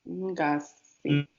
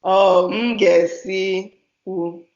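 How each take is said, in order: First: "m ga-esi" said slowly, syllable by syllable; over enunciating. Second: "m ga-esi kwu" drawn out slowly, each syllable clear; over enunciating. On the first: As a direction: spell out "m ga-esi" with careful, even syllables. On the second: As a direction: carefully sound out "m ga-esi kwu". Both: Shown as a demonstration. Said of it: "Just repeat after me".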